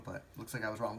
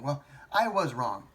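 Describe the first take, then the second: First: Said in the usual way. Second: Louder, slower, "I" stressed in "Well, I was wrong."; firm admission. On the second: Real, not acted. Vlogger owning up to viewers, a firm, louder, slower admission. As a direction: own it, lean on "I".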